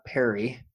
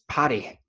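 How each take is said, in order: First: The name is said like the name Perry. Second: The name is said with a Welsh pronunciation. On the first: The speaker calls it wrong. "not Perry. Perry pairs it with P-E" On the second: The speaker calls it right. "as the Welsh say, it's potty"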